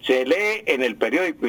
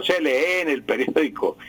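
First: Lee stressed on the first E: LÉ-e; acento grave. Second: Lee wrongly stressed on the last E: leÉ; acento agudo erróneo. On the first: Shown as a demonstration. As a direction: say LÉ-e within the phrase. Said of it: "se dice se lee". (lee con acento en la primera e) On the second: Retold or imitated. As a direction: show the wrong leÉ within the phrase. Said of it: "y no se lee en el periódico". (lee con la última e acentuada)

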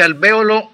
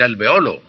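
First: "alvéolo" said al-VÉ-o-lo, stress on VÉ. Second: "alveolo" said al-ve-O-lo, stress on O. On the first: Teacher answering a listener's question: "alvéolo" as al-VÉ-o-lo. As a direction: hit VÉ in "alvéolo". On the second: Teacher giving the listener the second form: "alveolo" as al-ve-O-lo. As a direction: lean on the O of "alveolo". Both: Shown as a demonstration. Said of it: "Se puede decir alvéolo o se puede decir alveolo".

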